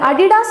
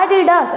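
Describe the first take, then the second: First: The first syllable is not stressed. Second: The first syllable is stressed. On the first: The speaker calls it wrong. "நீங்கள் சொல்லக்கூடாது" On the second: The speaker calls it right. "இந்த ஏல stress கொடுக்கணும்"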